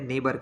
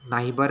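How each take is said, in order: First: The first vowel sounds like 'ay'. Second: The first vowel sounds like 'eye'. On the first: The speaker calls it right. "नेबर कहते हैं" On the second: The speaker calls it wrong. "इसको नाइबर नहीं कहते"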